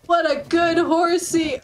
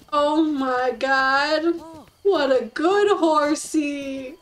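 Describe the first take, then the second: First: Said in the usual way. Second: Slow, drawn-out praise of what a good horsey; slow lovestruck praise; doting coo. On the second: Real, not acted. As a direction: gush over the horse like a pet. Cooing at new horse.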